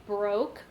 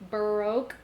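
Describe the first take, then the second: First: It uses the American pronunciation of the word. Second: The same.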